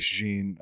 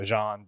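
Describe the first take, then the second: First: Jean said like "zheen"; Jean rhyming with "seen"; mispronounced name. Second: Jean said like "zhahn"; corrected pronunciation. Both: Real, not acted. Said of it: "I keep saying his name wrong".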